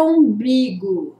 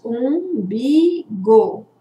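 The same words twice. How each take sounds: First: Said in the usual way. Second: "Umbigo" slowly split into three beats; syllable by syllable. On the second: Shown as a demonstration. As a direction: draw out each syllable of "Umbigo" separately. ("Umbigo" devagar, separando as três sílabas) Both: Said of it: "nós temos três sílabas".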